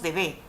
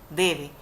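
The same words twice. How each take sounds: First: The stress is on the last syllable. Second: The stress is on the first syllable. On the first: The speaker calls it wrong. "no decimos debe" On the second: The speaker calls it right. "la mayor fuerza o intensidad en la palabra debe se hace en la D"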